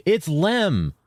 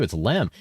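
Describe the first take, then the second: First: High-pitched exclamation on "Lem"; excited, much higher cry of "It's Lem!"; excited realization. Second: Said in the usual way. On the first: Real, not acted. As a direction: exclaim the discovery, pitch jumping up. Exclaims the discovery to chat.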